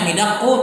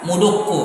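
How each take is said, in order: First: The first vowel is an i sound. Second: The first vowel is a u sound. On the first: This is the form the regular pattern predicts. "Seharusnya midakku" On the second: This is the irregular form actually used by Arabs. "tapi dibaca apa? Mudukku"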